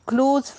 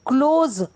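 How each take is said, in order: First: The word ends with a hissing s sound. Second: The word ends with a buzzing z sound. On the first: It means near or intimate. "स दंत स" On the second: It means to shut something. "ज के पैर में बिंदु"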